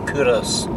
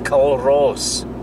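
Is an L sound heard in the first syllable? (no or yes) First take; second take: no; yes. First: The first syllable is said without an L sound. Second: The first syllable is said with an L sound. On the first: The speaker calls it right. "it's actually pronounced Kouros" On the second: The speaker calls it wrong. "they probably pronounce it Culross because it's spelled C U L R O S S"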